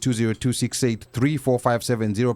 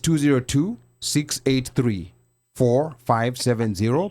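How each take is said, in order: First: The number is read at a normal pace. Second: The number is read at a slower pace.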